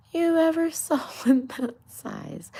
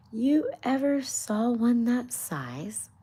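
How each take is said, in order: First: Retaking the rabbit line, breaking into a laugh; giggling through the retake. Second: High, louder, slow scolding rabbit voice; hammed-up rabbit scolding; indignant rabbit. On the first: Acted. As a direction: whisper it high and loud while cracking up. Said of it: "I know, it was a bad accent". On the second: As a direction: scold like a fussy rabbit, dragging it out.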